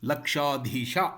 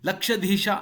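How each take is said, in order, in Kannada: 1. ಎರಡನೇ ಉಚ್ಚಾರಾಂಶದಲ್ಲಿ ದೀರ್ಘ ಸ್ವರ ಇದೆ. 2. ಎರಡನೇ ಉಚ್ಚಾರಾಂಶದಲ್ಲಿ ಹ್ರಸ್ವ ಸ್ವರ ಇದೆ. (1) "ಸವರ್ಣ ದೀರ್ಘ ಸಂಧಿ" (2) "ಎನ್ನುವಂತಿಲ್ಲ"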